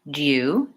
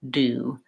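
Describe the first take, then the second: First: A 'y' glide follows the d: dyoo. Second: No glide follows the d: doo. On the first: "British, do. There's the little J sound" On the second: "American English, do"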